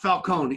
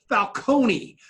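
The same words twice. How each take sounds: First: The final vowel of the name is dropped. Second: The final vowel of the name is pronounced. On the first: The speaker calls it wrong. "not Falcone" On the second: The speaker calls it right. "it is [name]"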